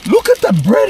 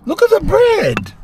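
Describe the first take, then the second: First: Excited. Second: Very high, amazed squeal; thrilled at a croissant bun, very high squeal; squealing delight. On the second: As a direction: squeal it like you can't believe the bread. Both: Real, not acted. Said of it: "repeated much higher".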